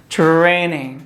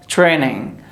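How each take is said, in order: Both takes have the same delivery.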